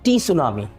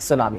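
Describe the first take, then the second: First: The word begins with an audible t sound. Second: The word begins with an s sound. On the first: The speaker calls it wrong. "मैं उसको pronounce कर रहा था टी सुनामी" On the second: The speaker calls it right. "टी is silent"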